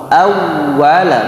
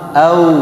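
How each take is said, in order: First: The doubled w is pronounced with pressure. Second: The w is dropped, leaving a bare vowel glide. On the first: The speaker calls it right. "Awwala, bukan au" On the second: The speaker calls it wrong. "Au, tapi awwala"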